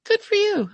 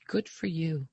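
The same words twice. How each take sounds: First: Much higher and louder good for you; repeated praise raised high and loud; emphatic praise. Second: Said in the usual way. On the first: Retold or imitated. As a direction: cheer him on with a bright burst. Doctor repeats praise, more emphatic.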